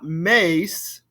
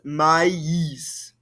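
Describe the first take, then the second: First: The two vowels merge into one sound. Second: The two vowels are said as separate sounds. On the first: The speaker calls it wrong. "It's not mace" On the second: The speaker calls it right. "pronounce these two vowel sounds as separate"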